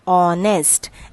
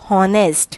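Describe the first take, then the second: First: The word begins with no H sound. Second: The word begins with a pronounced H sound. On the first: The speaker calls it right. "H is silent over here" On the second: The speaker calls it wrong. "we should not call it or pronounce it as honest"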